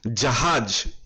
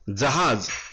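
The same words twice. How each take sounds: First: The word is pronounced the Hindi way. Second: The word is pronounced the Marathi way. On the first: "Hindi में ... जहाज ऐसा इसका उच्चारण किया जाता है" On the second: "मराठी में बोलते समय जहाज ऐसा बोला जाता है"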